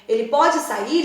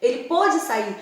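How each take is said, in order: First: Pode with an open o: PÓ-de. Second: Pôde with a closed o: PÔ-de. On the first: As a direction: stress and open the first vowel of pode. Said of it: "está no presente". (pode com o aberto, no presente) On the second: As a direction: stress and round the first vowel of pôde. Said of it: "mas no passado". (pôde com o fechado, no passado) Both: Shown as a demonstration.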